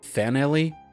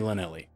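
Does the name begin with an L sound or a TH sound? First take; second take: TH; L. First: The name begins with a th sound. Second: The name begins with a plain l sound. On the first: "the L L could be pronounced like a T H" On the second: "I'm just going to say Lanelli"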